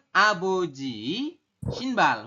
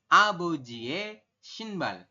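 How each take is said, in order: First: The possessive particle is pronounced as written, 'ui'. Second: The possessive particle is pronounced as 'e'. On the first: The speaker calls it wrong. "Mungkin Anda akan membacanya seperti itu" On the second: The speaker calls it right. "Tapi nanti dibacanya menjadi abojie shinbal"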